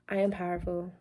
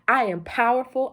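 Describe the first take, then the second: First: It is said weakly, with hesitation. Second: It is said with firm conviction.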